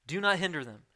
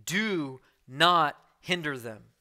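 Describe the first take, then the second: First: Said in the usual way. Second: "Do not hinder them" slow, every word pressed, stress on not; forceful rebuke. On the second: Retold or imitated. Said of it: "Very forceful, direct, corrective".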